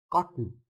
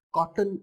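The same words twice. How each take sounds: First: कॉटन with ट running straight into n; कॉटन ending in a syllabic n; very short t. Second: कॉटन with a clear "tan" ending; कॉटन said as two full syllables, cot-tan; full second vowel. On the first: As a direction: drop the vowel before न in कॉटन. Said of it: "ट sound है वो बहुत ही छोटा है". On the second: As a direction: put a vowel before the न of कॉटन. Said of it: "कॉटन नहीं है". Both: Shown as a demonstration.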